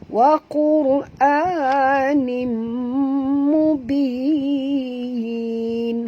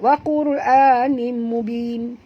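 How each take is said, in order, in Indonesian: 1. Vokal akhir dibaca panjang. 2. Vokal akhir dibaca sangat pendek. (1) "kan elok baca panjang tu" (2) "baca dua terlampau pendek"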